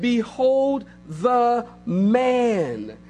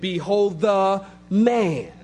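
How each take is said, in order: First: "Behold the man" very slow, drawn out. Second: "Behold the man" slow and weighty. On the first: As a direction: stretch "Behold the man" slowly for weight. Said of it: "He said". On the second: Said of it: "He didn't say, "Behold the man," pseudo man". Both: Acted.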